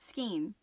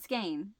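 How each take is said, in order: First: The vowel sounds like 'ee'. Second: The vowel sounds like 'ay'. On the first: This is how people say it locally. "around where I live, that's what we say, skeen" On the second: This is how others say it. "not skane"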